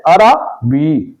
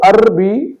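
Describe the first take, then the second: First: عربی drawn out slowly, "ara-bi"; a short a after the r in عربی, slowly: "a-ra-bi"; درست تلفظ. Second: عربی as "arr-bi", no vowel after the r; غلط تلفظ. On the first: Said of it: "درست لفظ ہے". (عربی، رے پر زبر کے ساتھ) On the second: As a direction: close the first syllable of عربی on r. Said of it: "تو عربی نہیں ہے". (عربی، رے ساکن کے ساتھ) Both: Shown as a demonstration.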